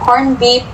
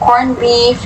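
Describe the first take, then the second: First: The word beef ends with a P sound. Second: The word beef ends with an F sound.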